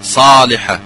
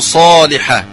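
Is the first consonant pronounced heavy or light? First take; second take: light; heavy. First: The first consonant sounds weak and light. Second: The first consonant sounds strongly heavy and emphatic. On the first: The speaker calls it wrong. "لا نقول صالحة" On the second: The speaker calls it right. "نقول صالحة"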